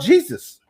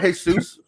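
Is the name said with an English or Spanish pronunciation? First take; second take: English; Spanish. First: It is said with an English pronunciation. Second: It is said with a Spanish pronunciation.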